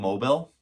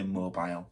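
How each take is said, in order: First: It is said with an American accent. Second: It is said with a British accent.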